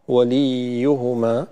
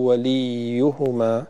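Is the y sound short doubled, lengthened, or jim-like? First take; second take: lengthened; lengthened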